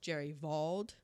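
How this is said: The name is pronounced the German way.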